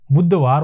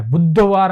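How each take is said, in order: First: बुधवार said as "budhvaar", in two syllables; the tight correct form of बुधवार; correct pronunciation. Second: बुधवार said as "budhavaar", with an extra vowel; the drawn-out wrong form of बुधवार; wrong pronunciation. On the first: Teacher gives the right form, "budhvaar". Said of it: "बुधवार होता है". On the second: Teacher shows students the mistake, "budhavaar". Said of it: "बुधवार नहीं होता है". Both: Shown as a demonstration.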